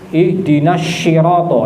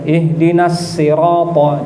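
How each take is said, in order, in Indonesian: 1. Sirata diawali dengan bunyi sh. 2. Sirata diawali dengan bunyi s biasa. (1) "Yang tidak boleh itu dibaca dengan shin" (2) "Kalau tidak ya ganti sin saja"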